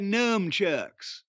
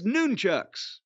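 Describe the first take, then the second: First: The first syllable sounds like 'numb'. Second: The first syllable sounds like 'nun'. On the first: "Numb. A lot of people say nunchucks" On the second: "if you're doing it right, if you're going to give them a nickname, it's nunchucks"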